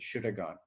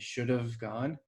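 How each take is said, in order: First: The word 'have' shrinks to a bare schwa. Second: The word 'have' is reduced to 'of'. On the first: "and then reduces more to" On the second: "Maybe the have will reduce to an of"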